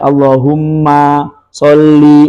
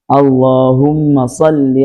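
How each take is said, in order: First: One sound in the phrase is drawn out long. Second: The vowels are kept at normal short length. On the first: The speaker calls it wrong. "Jangan sampai ... ini dipanjangkan, maknya dipanjangkan" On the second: The speaker calls it right. "Harusnya kan"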